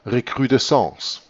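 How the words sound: The word is said with French pronunciation. "It was a French word. It is then, of course, pronounced recrudescence"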